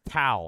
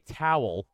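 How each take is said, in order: First: The W is dropped, sounding like 'tail'. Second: The word has a clear W sound. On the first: "She says towel" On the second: "She doesn't say towel"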